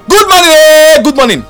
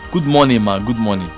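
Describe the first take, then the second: First: It is said loudly and harshly. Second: It is said softly and calmly.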